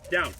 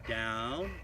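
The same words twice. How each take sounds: First: The word is said in a stern, flat voice. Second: The word is said in a lively, varied voice. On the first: It is a command to obey. The speaker calls it right. "very stern and uh, and kind of monotone" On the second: It sounds like something is being offered. The speaker calls it wrong. "we want to avoid doing something like down"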